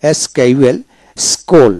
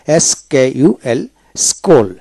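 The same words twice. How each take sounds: The two takes are said the same way.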